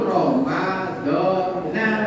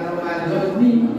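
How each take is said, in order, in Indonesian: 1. Kata ini berakhir dengan vokal pendek -a. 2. Kata ini berakhir dengan vokal pendek -i. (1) "maka yang bacanya fathah" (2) "bukan Ramadhani"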